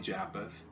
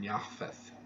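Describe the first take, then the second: First: The middle consonant is a hard P sound. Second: The middle consonant is a soft F sound. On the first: The speaker calls it wrong. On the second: The speaker calls it right.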